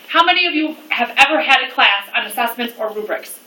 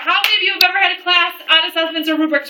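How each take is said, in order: First: It is said more slowly. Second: It is said at a normal pace.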